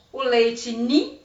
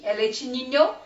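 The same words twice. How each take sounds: First: Nin with the final syllable cut off; wrong ninho. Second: Ninho said in full, niɲo; correct ninho. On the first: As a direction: say leite nin, clipping the end. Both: Shown as a demonstration. Teacher contrasting the wrong and right word. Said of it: "que não é leite nin".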